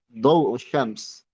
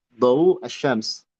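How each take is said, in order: The two takes are said the same way.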